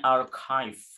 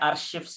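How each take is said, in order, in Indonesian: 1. Ch diucapkan seperti bunyi k. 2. Ch diucapkan seperti bunyi ch. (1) "bacanya arka" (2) "Jangan dibaca archives ya"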